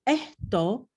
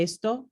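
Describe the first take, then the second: First: Esto said as ehto, s breathed as h; aspirated s. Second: Said in the usual way. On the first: Shown as a demonstration. Teacher showing southern Spanish esto with aspirated s. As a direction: drop the s into an h in esto. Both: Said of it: "o esto en lugar de esto".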